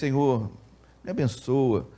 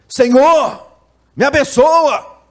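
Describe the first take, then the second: First: It is said at a normal, quiet volume. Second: It is said loudly, with raised voice. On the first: It is a simple request. "Pedir eu peço assim" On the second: It is a desperate cry from the heart. "Falei mais alto"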